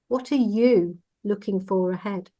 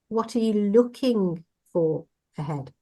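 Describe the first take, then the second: First: The stress is on "you". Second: The stress is on "looking".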